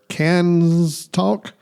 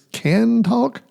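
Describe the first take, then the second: First: The first word ends with an s sound. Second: The first word ends without an s sound. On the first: The speaker calls it wrong. "I always w- want to put an S at the end, like when I say it" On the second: The speaker calls it right. "So it's can talk"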